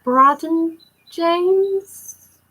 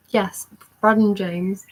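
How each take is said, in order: First: Drawn out slowly and pitched high, searching memory; unsure question. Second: Said in the usual way. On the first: Real, not acted. Fan checking her memory of the photo, slow high question.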